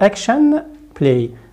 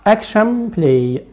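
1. صوت n في آخر كلمة action يبقى n واضحا. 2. صوت n في آخر كلمة action يُنطق مثل m. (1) "not action play" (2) "action play not action play"

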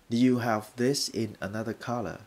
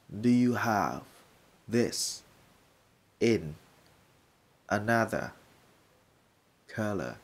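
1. Câu này được nói với tốc độ bình thường. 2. Câu này được nói chậm.

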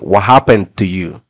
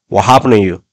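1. La t en 'to' se pronuncia con fuerza. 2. La t en 'to' suena como una n suave.

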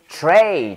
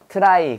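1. 모음은 say처럼 'ay'로 들려요. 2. 모음은 try처럼 'eye'로 들려요. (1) "try가 아니라 영어로 뭐다?" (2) "일본 애들이 발음 못해서 이거를 try로 발음했어요"

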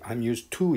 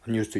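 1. used와 to는 따로 발음돼요. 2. used와 to는 붙어서 발음돼요. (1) "이러지 않는단 말이에요" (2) "이렇게 하지"

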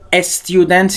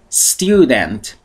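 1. قبل از صدای s یک مصوت اضافه میاد. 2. کلمه مستقیم با صدای s شروع میشه.

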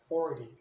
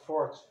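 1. A palavra termina com uma vogal 'ee' clara. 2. A palavra termina sem uma vogal 'ee' final. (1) "O correto é você falar o Y no final" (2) "os brasileiros fazem o som T mudo ... e tá errado"

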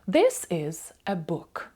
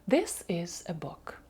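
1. Речення вимовляють у звичайному темпі. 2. Речення вимовляють швидше. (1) "Давайте ще раз прочитаємо" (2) "А тепер швидше"

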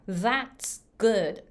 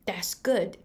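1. th の音で始まります。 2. d の音で始まります。

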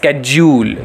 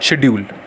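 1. शब्द की शुरुआत 'sk' ध्वनि से होती है। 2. शब्द की शुरुआत 'sh' ध्वनि से होती है। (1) "अमेरिकन प्रोनाउंसिएशन क्या है" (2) "इसका जो ब्रिटिश प्रोनाउंसिएशन है वो होता है शेड्यूल"

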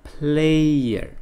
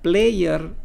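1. Kata ini diucapkan sebagai satu suku kata yang meluncur. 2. Kata ini dibagi menjadi dua suku kata. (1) "tetapi player" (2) "Bukan player"

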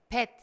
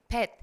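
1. 첫 자음이 부드러워요. 한국어 ㅂ 같아요. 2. 첫 자음이 부드러워요. 한국어 ㅂ 같아요.

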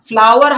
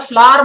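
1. बीच की w glide साफ़ बोली जाती है। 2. बीच की w ग्लाइड छोड़ दी जाती है। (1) "फ्लावर हाच त्याचा बेस्ट उच्चार आहे" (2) "त्याला फ्लावर म्हणणं योग्य नाहीये"

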